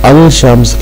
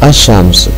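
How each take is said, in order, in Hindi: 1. L की आवाज़ shams से पहले बोली जाती है। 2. L दोहरी sh आवाज़ में विलीन हो जाता है। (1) "अल शम्स की बजाय" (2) "लाम की जज़्म और लाम का जो अदा होना है वो हज़्फ कर दिया गया"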